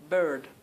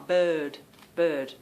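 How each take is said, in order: First: American "bird" with the R sounded. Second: "bird" with an open vowel, no R; R-less bird. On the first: Retold or imitated. Mimicking how her family says it, American "bird". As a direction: imitate an American saying "bird". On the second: Shown as a demonstration. Showing viewers her own word, "bird" without R. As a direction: say "bird" leaving out the R. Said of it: "The fact that there's no R".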